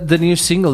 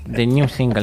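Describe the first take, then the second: First: It is said in a plain, neutral accent. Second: It is said with a strong Spanish accent.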